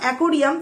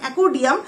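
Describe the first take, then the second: First: The middle consonant sounds like an r. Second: The middle consonant sounds like a d. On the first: The speaker calls it right. "ওটা তো অ্যাকোরিয়াম" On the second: The speaker calls it wrong. "তোমার উচ্চারণটাও ভুল"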